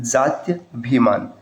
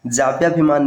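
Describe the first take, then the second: First: जात्यभिमान slowly, split "jaatya-bhimaan"; correct form. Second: जाप्याभिमान with p-y and long "aa"; wrong form. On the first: Teacher correcting students, slow "tya" in जात्यभिमान. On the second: Teacher citing the rejected form, "pyaa" in जाप्याभिमान. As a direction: say जाप्याभिमान as "jaapyaabhimaan". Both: Shown as a demonstration. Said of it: "जाप्याभिमान नहीं".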